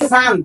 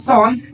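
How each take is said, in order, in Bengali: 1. স্বরধ্বনিটি 'uh' এর মতো শোনায়। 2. স্বরধ্বনিটি 'aw' এর মতো শোনায়। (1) "এটা অবশ্যই সান" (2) "এটাকে সন বললে ভুল হয়ে যাবে"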